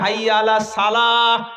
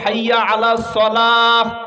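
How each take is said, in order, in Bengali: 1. 'salah' শব্দের s হালকা ও সাধারণ। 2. 'salah' শব্দের s ভারী ও জোরালো। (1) "সোয়াতের জায়গায় ... সিন বলে পার হয়ে চলে গেছে" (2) "উচিত ছিল"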